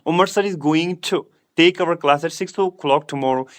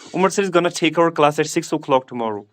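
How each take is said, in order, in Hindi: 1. Going to पूरे दो शब्दों के रूप में पूरा बोला जाता है। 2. Going to को छोटा करके gonna बोला जाता है। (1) "आप इस तरह बोलोगे" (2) "या इस तरह बोलोगे"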